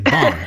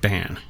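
First: The vowel sounds open, as in 'bond'. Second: The vowel sounds nasal, as in 'ban'. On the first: This is a personal variant pronunciation. "sometimes I'll say Bon. Because it sounds like James Bond" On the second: This is the family's pronunciation. "my family actually pronounces it Ban. And I think that's kind of like nasally for me"

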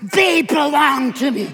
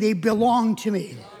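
First: It is said forcefully, almost spitting the words. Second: It is said calmly, without extra force.

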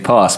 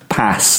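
First: It is said in a Southern English accent. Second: It is said in an American accent. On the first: This is how the singer talks normally. The speaker calls it right. "if they are from Kent ... in speech, they would say pass" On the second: This is how the singer says it while singing. The speaker calls it wrong. "like he's American"

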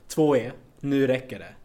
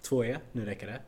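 First: The voice is raised to its loudest level. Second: The voice is raised to a medium level. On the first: "Utan man måste trappa upp den" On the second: "medvetet trappade jag upp rösten"

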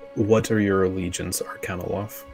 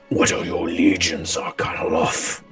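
First: The voice is plain and natural. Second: The voice is thick, deep and guttural. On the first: "can you say that without the accent so I can hear it better?" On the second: "A thick, guttural, bestial voice"

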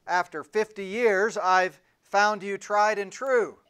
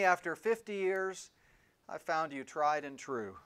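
First: It is said a little louder than normal. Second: It is said at a normal speaking volume.

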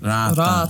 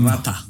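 First: The vowels are held long. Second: The vowels are short. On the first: The speaker calls it right. "For the tree" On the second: The speaker calls it wrong. "Not rata"

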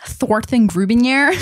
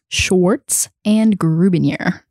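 First: It is said in a put-on character voice. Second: It is said in the speaker's ordinary voice.

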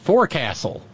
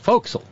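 First: Every syllable is pronounced as it is spelled. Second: The word is reduced, not pronounced as spelled. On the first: The speaker calls it wrong. "And I said" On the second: The speaker calls it right. "nope, it's a forecastle"

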